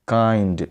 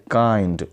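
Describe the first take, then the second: No difference in how they are said.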